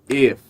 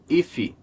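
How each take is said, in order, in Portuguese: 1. A palavra termina limpa, na consoante. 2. Um som de vogal extra, tipo 'ee', vem depois da consoante final. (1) "Não, ok?" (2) "A gente ouve muito esse if sendo pronunciado if"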